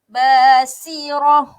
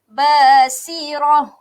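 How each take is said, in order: No difference in how they are said.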